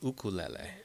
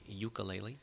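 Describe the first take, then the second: First: It uses the Hawaiian pronunciation of the word. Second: It uses the mainland American pronunciation of the word. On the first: "The Hawaiian pronunciation is ukulele" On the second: "Here in the mainland, we say ukulele"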